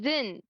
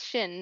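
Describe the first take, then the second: First: The name begins with a z sound. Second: The name begins with a sh sound. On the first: "with like a Z sound" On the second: "It's sh"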